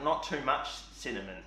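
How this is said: There is a pause inside the phrase. "I read that with another comma again. Like"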